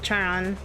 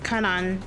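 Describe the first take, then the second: First: The name begins with a ch sound. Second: The name begins with a k sound. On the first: "but I say Charan. The C H" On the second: "he says Karan"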